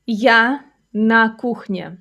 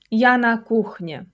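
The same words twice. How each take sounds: First: Slow, word-by-word teaching delivery; slow model sentence. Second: Said in the usual way. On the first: Shown as a demonstration. Teacher modelling a kitchen sentence for learners, slowly. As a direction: space out each word for learners.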